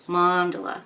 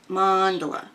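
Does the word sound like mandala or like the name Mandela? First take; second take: mandala; mandala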